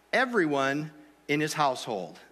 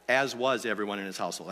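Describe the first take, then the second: First: Said in the usual way. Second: Low, hurried reread of a fluffed line; rapid, low-pitched correction under the reading; quick self-correction. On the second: Real, not acted. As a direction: slip the corrected words in fast and low. Rereads the misread verse as correction.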